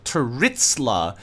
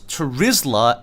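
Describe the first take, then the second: First: The middle consonant is a ts sound. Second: The middle consonant is a plain z sound. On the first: The speaker calls it wrong. "Why do you always pronounce Terizla as Teritzla?" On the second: The speaker calls it right. "not all Z's are pronounced as T's"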